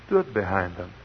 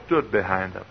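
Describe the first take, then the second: No difference in how they are said.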